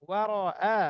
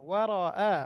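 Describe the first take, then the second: The two takes are said the same way.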